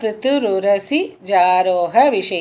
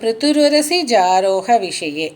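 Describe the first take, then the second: First: The words are said slowly with pauses between. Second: The words run together without any pauses. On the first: "நிதானமாக படிக்கும் பொழுது அதை பிரிக்கும் பொழுது" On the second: "சேர்த்து படிக்கும்போது"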